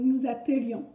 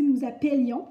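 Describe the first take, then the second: First: "appelions" said as "a-peu-lions"; correct schwa E. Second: "appelions" mispronounced as "appèlions"; louder "appelions" with open è instead of "euh"; wrong open è. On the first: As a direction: model "appelions" with an unaccented middle E. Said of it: "qu'on doit le prononcer en français". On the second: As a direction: demonstrate the error, è in the middle of "appelions". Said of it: "sinon on devrait prononcer". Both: Shown as a demonstration.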